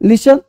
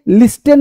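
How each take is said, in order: First: The t sound is silent. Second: The t sound is pronounced. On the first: The speaker calls it right. "टी प्रायः silent होता है" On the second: The speaker calls it wrong. "लिस्टेन नहीं पढ़ते"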